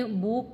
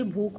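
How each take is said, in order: First: भूख ending in plain k, "bhook"; wrong consonant. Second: भूख ending in aspirated kh; correct aspiration. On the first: Teacher showing the error, भूख as "bhook". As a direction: say भूख with no breath on final k. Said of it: "भूख क्या नहीं होती". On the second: Teacher correcting the error, भूख with aspirated final kh. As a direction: say भूख as "bhookh". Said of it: "भूख होती है". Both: Shown as a demonstration.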